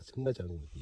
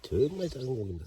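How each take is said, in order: First: Said in the usual way. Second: 정말 punched higher and louder, falling; stress on 정말. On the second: Shown as a demonstration. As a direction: marvel at 정말 with a loud push.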